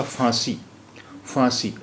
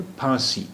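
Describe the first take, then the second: First: Teacher shows the wrong फांसी with f. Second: फांसी with an aspirated ph; teacher models the correct फांसी with ph. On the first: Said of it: "और फांसी गलत होता". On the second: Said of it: "सही लफ्ज़ है फांसी". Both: Shown as a demonstration.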